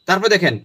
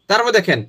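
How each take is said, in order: No difference in how they are said.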